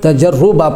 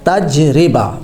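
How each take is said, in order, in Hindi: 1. र की आवाज़ के बाद u स्वर आता है। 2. र की आवाज़ के बाद i स्वर आता है। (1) "रा के ऊपर पेश पढ़ते हैं" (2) "रा के नीचे ज़ेर लगानी है"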